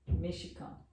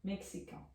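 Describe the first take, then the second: First: Mexicano softly, X said as "sh"; soft "me-shi-KA-nu" for mexicano; Portuguese pronunciation. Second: Mexican softly as "mek-si-KAN"; soft French Mexican, X as "ks", nasal ending; French pronunciation. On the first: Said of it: "esse X com som de C H". (mexicano baixinho, X com som de CH) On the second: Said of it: "Em francês". (Mexican baixinho, com X de "ks") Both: Shown as a demonstration.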